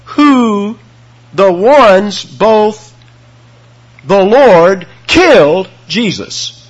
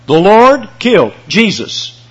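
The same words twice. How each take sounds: First: Slow, loud and deliberate, weight on killed; dramatic slow reading of the Greek order; Greek word order. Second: Emphatic Lord, slowed; stress on Lord. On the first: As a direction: read it out slowly like a solemn proclamation, leaning on killed. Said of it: "let me give you the Greek reading of this verse". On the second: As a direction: Lord punched loud and high, then falling. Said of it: "the participle is placed before the Lord". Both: Shown as a demonstration.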